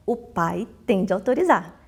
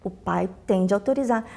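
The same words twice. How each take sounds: The two takes are said the same way.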